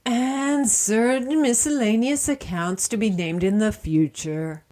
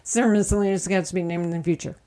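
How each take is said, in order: First: Each word spelled out deliberately. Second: Rattled off very fast; rushed fine print. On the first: Repeats it slowly and clearly. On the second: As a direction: blurt the legal disclaimer fast. Repeats fine print even faster. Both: Acted.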